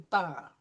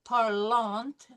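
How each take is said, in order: First: The final ending is left silent. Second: The final ending is sounded aloud. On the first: The speaker calls it right. "we say parle" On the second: The speaker calls it wrong. "we don't say parlante"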